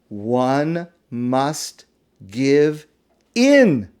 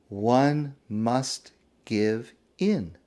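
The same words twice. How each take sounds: First: It is said louder and more slowly. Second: It is said at a normal volume and pace.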